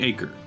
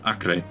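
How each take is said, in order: First: It is said like the English word acre. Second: It is not said like the English word acre. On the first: It is the ordinary land-measure word. "It literally just could be the word acre" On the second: It names the ancient city. "Like the ancient city over in the Holy Land"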